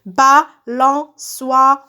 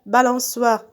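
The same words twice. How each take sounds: First: Balançoire very slow, in four separate beats; syllable by syllable. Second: Said in the usual way. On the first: Shown as a demonstration. Teacher cutting words into syllables, syllable by syllable. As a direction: chop Balançoire into BA, LAN, ÇOI, RE. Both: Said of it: "je découpe les mots en syllabes".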